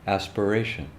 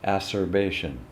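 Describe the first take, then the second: First: The middle of the word has a p sound. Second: The middle of the word has a b sound. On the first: The speaker calls it right. "she couldn't say aspiration" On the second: The speaker calls it wrong. "she would say acerbation"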